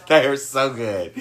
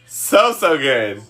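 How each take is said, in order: First: Chuckling while raving; laughing through words. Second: Slowly drawn out, savoring. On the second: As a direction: savor each word slowly. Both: Real, not acted. Raving about turkey burgers.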